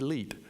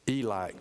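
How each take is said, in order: First: The word ends with a t sound. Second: The word ends without a t sound. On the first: The speaker calls it right. "the proper pronunciation for that was probably Elite Restaurant" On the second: The speaker calls it wrong. "to just show you how backwards we were, I just said Eli Cafe"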